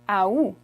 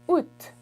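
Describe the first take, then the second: First: It begins with an audible A sound. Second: It ends with an audible T sound. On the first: "instead of making the A at the beginning silent, they actually pronounce it" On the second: "instead of saying ou, you add a T at the end"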